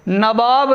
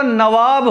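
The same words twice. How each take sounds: First: नवाब with a b in the middle, nabāb; wrong pronunciation. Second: नवाब with v in the middle, navāb; correct pronunciation. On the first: Teacher showing students the mistake, wrong pronunciation. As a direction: say नवाब as na-BAAB. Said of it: "नवाब नहीं होता". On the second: Teacher giving the correct word, correct pronunciation. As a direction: say नवाब as na-VAAB. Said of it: "नवाब होता है". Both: Shown as a demonstration.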